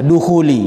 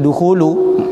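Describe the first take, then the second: First: The word ends with an 'i' vowel. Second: The word ends with a 'u' vowel. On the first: The word is read in the genitive case. The speaker calls it wrong. "Kenapa dibaca jer?" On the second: The word is read in the nominative case. The speaker calls it right. "Dibaca rofa"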